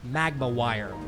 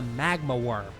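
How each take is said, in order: First: The second word sounds like 'wire'. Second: The second word sounds like 'worm'.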